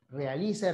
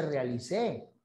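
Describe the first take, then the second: First: "Realice" stressed on "li"; stress on second-last syllable. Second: "realicé" stressed on the final "cé"; stress on last syllable. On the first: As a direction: lean on "li" in "Realice". ("Realice" con acento en "li") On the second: ("realicé" con acento en "cé") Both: Shown as a demonstration. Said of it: "No es lo mismo rala que sala".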